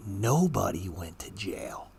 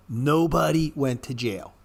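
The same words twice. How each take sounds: First: Slow, soft unvoiced whisper of Nobody went to jail. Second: Said in the usual way. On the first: Shown as a demonstration. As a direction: breathe it out like a secret.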